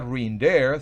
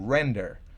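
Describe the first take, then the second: First: The stress is on the second syllable. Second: The stress is on the first syllable. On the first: The speaker calls it wrong. "no se pronuncia render" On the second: The speaker calls it right. "sino to render"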